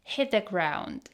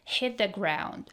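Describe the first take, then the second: First: The t in hit is a glottal stop. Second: The same.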